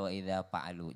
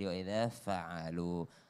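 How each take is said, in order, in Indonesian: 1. Kata kerjanya diawali bunyi P. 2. Kata kerjanya diawali bunyi F.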